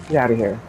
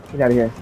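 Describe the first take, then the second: No difference in how they are said.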